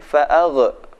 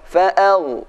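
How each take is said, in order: First: The gh sound ends with a bouncing echo. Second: The gh sound is held smoothly without bouncing. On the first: The speaker calls it wrong. "Jangan sampai fa'agh" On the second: The speaker calls it right. "Yang benar"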